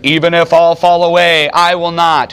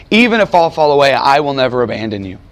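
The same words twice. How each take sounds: First: Proud vow, a bit louder; Peter's confident boast; bold declaration. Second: A hint of pain as the vow recalls the wound. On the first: Retold or imitated. Peter boldly vows to Jesus, loud and proud. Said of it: "Peter declared". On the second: Old Peter recounting his vow to the Christians, with a hint of pain. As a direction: let old regret color the promise. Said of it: "you can still hear the pain in Peter's voice".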